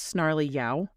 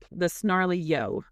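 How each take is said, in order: First: The last word rhymes with cow. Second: The last word ends with an oh sound. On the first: "like cow" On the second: "I'm trying to figure out if I'm saying that right"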